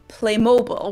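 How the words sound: The name is pronounced the American way. "I've also heard Americans pronounce it as Playmobil, which uh, sounds very different"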